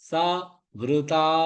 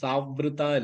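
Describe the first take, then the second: First: The two parts are said separately. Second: The two parts run together as one word. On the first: The speaker calls it right. "தனித்தனி எழுத்துகள்" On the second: The speaker calls it wrong. "இல்ல"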